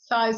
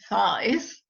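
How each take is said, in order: First: The word is said lightly and casually. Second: The word is said with heavy, dramatic emphasis. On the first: The issue is simply acknowledged without judgment. The speaker calls it right. "almost like you're saying aha" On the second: The issue is treated as a big problem. The speaker calls it wrong. "you can't make a big deal out of it"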